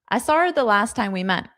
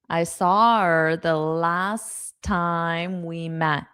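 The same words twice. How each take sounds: First: The sentence is said quickly. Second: The sentence is said slowly. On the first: "so I'll say it fast" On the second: "Now I'll say it slow"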